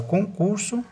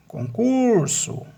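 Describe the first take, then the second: First: Said in the usual way. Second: "concurso" slowly, CUR high and drawn out; conCUUURso, long middle syllable; stress on CUR. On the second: Shown as a demonstration. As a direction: stretch and lift the "cur" in "concurso". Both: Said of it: "a sílaba tônica é concur".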